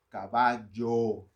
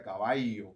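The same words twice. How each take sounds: First: Slow "caballo" with a clear LL; correct LL. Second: "caballo" with the LL said like a Y sound. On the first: Pastor showing the right "caballo" slowly. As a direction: stretch out "caballo", sounding the LL. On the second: Pastor showing his old way of saying "caballo". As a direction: let "caballo" go soft, the LL as an I. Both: Shown as a demonstration.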